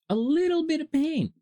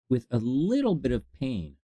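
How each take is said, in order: First: Much higher, playful emphasis; high-pitched mock minimizing; mock-dainty squeak. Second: Said in the usual way. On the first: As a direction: tease it out in a high little voice. Repeats it in mock-small squeal.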